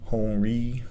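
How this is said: The name is said with French pronunciation. "But in French it's"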